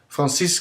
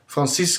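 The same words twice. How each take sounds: First: The name is said with a French accent. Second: The name is said with a French accent.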